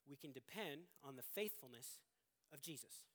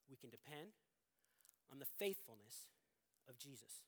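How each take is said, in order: First: Said in the usual way. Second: Soft and quiet, with long pauses between the phrases; slow, spaced-out key point. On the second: Shown as a demonstration. Preacher stating the sermon's main point, softly and spaced. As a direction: let each phrase of the point land alone, softly. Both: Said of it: "this is the main point".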